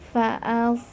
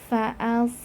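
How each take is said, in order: Both takes have the same delivery.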